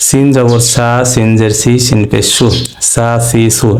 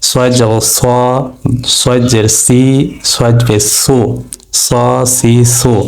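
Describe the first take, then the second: First: সা, সি, সু with a light, thin s. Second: স, সি, সু with a heavy, full s, rounded vowels; weight the s in স সি সু; thick heavy s. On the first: Teacher drilling the letter sin, thin সা সি সু. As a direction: keep the s in সা সি সু light. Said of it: "এই সা সি সু পাতলা করে পড়বে". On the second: Teacher drilling the letter sad, thick স সি সু. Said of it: "এটা মোটা করে পড়তে হবে". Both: Shown as a demonstration.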